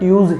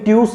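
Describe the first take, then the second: First: It ends with a z sound. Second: It ends with an s sound. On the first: The speaker calls it right. "ट्यूज ही बोलता है" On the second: The speaker calls it wrong. "कोई ट्यूस नहीं बोलता"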